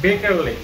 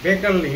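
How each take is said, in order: First: The name begins with a B sound. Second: The same.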